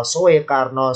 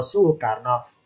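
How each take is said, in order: First: SOEKARNO said as "So-e-karno"; split old-spelling vowels. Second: SOEKARNO said as "Su-karno", slow; merged u sound. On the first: Teacher sounds out old spelling, split "So-e". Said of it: "pertemuan intonasi O sama E". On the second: Teacher shows O and E becoming U, slow "Su-karno". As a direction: merge the first vowels of SOEKARNO into U. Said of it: "O sama E jadilah U". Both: Shown as a demonstration.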